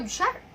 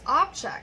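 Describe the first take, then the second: First: The stress is on the second syllable. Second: The stress is on the first syllable. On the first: It is used as a verb. "the first one is a verb" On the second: It is used as a noun. "the second one is a noun"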